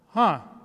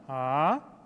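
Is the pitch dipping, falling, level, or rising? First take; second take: falling; rising. First: The pitch falls from high to low. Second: The pitch rises from low to high. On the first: "the fourth tone is from high to low" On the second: "from low to high"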